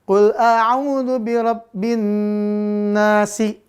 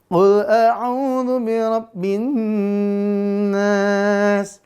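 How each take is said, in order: First: The last word ends with a short i vowel. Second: The last word ends on s, vowel long before. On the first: The verse is joined to the next verse. "kalau di wasol ya" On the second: The reciter stops at the end of the verse. "Kalau di wakaf, maka dia berhenti menjadi panjang dan si-nya, kasrohnya menjadi su, sukun"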